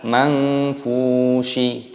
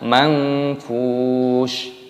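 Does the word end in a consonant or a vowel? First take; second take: vowel; consonant. First: The word ends with an added vowel sound. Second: The word ends on a silent final consonant. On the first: The speaker calls it wrong. "bukan mangfushi, bukan seperti itu" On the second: The speaker calls it right. "dibaca mangfush"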